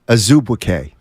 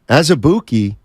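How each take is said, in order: First: The name is said with Nigerian sounds. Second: The name is said with Americanized sounds. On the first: The speaker calls it right. "in Nigeria, ... the way you pronounce his name is Azubuike" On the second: The speaker calls it wrong. "the Americanized way to say his last name"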